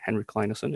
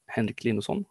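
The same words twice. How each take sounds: First: The name has an English-style pronunciation. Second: The name has a native Swedish pronunciation.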